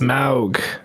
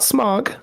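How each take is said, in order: First: The vowel sounds like the one in 'cow'. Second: The vowel sounds like the one in 'fog'. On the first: The speaker calls it right. "It's Smaug" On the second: The speaker calls it wrong. "not Smog"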